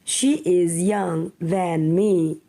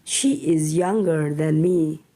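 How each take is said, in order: First: Said in the usual way. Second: Younger said lower as the answer; correct form. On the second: Shown as a demonstration. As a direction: drop the voice to give the right answer. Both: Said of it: "using comparative".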